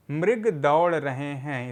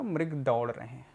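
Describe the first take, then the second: First: Slow careful reading. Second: Said in the usual way. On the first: Shown as a demonstration. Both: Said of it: "इसका उच्चारण होगा".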